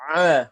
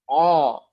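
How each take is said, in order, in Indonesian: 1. Vokal 'ah' yang tipis dan terbuka. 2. Vokal 'oh' yang tebal dan membulat. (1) "Dibaca uh, ah" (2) "bukan oh. Nah, ini salah"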